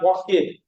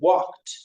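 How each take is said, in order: First: The ending adds an extra 'id' syllable. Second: The ending is a short t sound. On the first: The speaker calls it wrong. "You did not walk it on the beach" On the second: The speaker calls it right. "or you walked on the beach"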